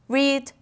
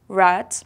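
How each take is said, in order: First: The vowel is long, like in 'reed'. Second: The vowel is short, like in 'red'. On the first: It is the present form of the verb. "we pronounce this one as read" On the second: It is the past form of the verb. "and this one as read"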